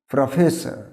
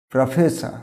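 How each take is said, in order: Both takes have the same delivery.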